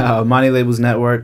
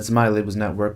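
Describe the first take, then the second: First: It is said slowly and deliberately. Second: It is said at normal conversational speed.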